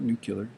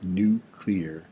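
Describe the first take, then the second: First: The ending is not said as 'clear'. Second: The word is said as 'new-clear'. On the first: The speaker calls it wrong. "It's not nuclear" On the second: The speaker calls it right. "we say new and clear"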